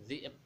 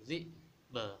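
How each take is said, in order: First: The final b stops flat with no echo. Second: The final b is released with an echoing bounce. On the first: The speaker calls it wrong. "Bukan dzi'b ya" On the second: The speaker calls it right. "Qol-qolahnya tetap muncul"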